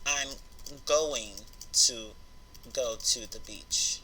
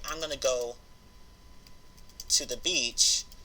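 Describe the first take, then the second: First: 'Going to' is said in full. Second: 'Going to' is reduced to 'gonna'. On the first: "you really mean to say I'm going to go to the beach" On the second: "when you say I'm gonna go to the beach"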